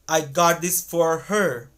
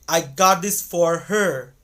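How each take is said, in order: The two takes are said the same way.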